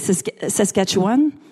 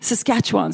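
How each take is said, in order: First: The name is pronounced the French way. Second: The name is pronounced the English way.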